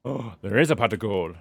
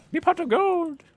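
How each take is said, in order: First: Said in the usual way. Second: Put-on high, hammy Irish leprechaun accent. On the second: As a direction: squeal it like a leprechaun. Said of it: "beautiful Irish accent".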